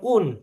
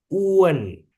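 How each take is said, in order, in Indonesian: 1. Bunyi u langsung masuk ke n. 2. Ada bunyi 'e' di antara u dan n. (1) "bacanya bukan un" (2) "tengahnya ada E"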